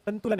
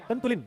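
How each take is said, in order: First: संतुलन ending in "-lan"; correct pronunciation. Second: संतुलिन ending in "-lin"; wrong pronunciation. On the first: Teacher gives students the right word, correctly pronounced. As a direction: say संतुलन with short a at the end. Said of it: "संतुलन है, संतुलन". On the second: Teacher shows students the mistake, mispronounced. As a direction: mispronounce the last syllable of संतुलिन with i. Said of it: "ये संतुलिन नहीं है". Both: Shown as a demonstration.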